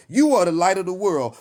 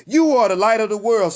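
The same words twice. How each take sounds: First: Said in the usual way. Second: Preached louder. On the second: Acted. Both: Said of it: "Let's say it one more time".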